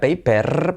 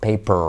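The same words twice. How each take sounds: First: The R is a Spanish-style tapped R. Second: The R is an American R, tongue raised.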